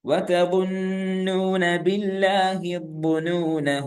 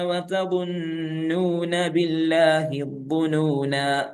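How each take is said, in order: First: The phrase runs on with a short final 'a'. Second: The phrase stops with a lengthened final 'aa'.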